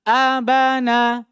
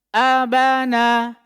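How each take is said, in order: The two takes are said the same way.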